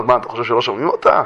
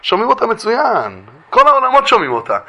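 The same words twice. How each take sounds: First: Lower, quick retort; low rhetorical question. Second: שומעים אותה pitched high and stretched; emphatic assurance. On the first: Heaven answering the pleading husband, low quick rhetorical question. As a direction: toss the question back low and fast. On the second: Heaven assures the husband she is heard, high emphatic answer. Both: Retold or imitated. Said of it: "אומרים לו".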